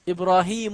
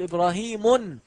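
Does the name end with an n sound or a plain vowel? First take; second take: plain vowel; n sound. First: The name ends on a single vowel, no n. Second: The name ends with an added n sound. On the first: The speaker calls it right. "أقول إسماعيل، إبراهيم" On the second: The speaker calls it wrong. "ولا تقل إبراهيم"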